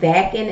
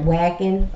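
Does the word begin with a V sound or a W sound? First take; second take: V sound; W sound. First: The word begins with a V sound. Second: The word begins with a W sound. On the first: The speaker calls it right. "I think it's called Wacken" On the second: The speaker calls it wrong. "instead of Wacken"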